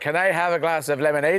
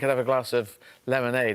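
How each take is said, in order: First: It is said in a Northern Irish accent. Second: It is said in an English accent. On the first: This is how he spoke after living there. "after about six months, I was going" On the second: This is how he spoke on arrival. "instead of saying"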